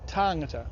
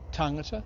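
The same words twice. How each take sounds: First: The vowel is said lengthened. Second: The vowel is said short. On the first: It refers to several people. "the vowel is lengthened in the plural" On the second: It refers to one person. "one tangata"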